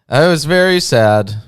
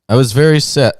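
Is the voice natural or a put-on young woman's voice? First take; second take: put-on; natural. First: It is said in a put-on young woman's voice. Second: It is said in the reader's natural voice. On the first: The speaker calls it right. "I have to do a young lady voice" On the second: The speaker calls it wrong. "you missed the uh, old lady voice"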